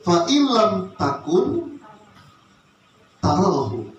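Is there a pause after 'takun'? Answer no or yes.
yes. There is a short pause after 'takun'. If you cease to exist, you will see Him. The speaker calls it right. "ada cara baca yang lebih bagus"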